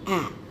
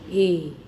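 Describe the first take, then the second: First: The vowel is short and clipped. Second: The vowel is long and drawn out. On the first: "Short sound is A" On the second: "Long sound is A"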